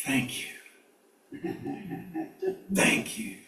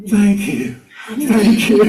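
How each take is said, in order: First: Hushed, breathless thank you; awed whisper. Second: Higher, louder delighted thank you; excited thanks. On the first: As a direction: whisper it in awe to the owl. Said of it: "what she's saying is". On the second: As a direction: burst out thanking the heron. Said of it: "there going". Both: Retold or imitated.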